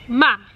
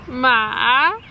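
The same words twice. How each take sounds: First: The pitch falls sharply and sounds final. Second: The pitch dips down and then rises. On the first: "just going down and very like um, final" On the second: "it goes down and then up higher"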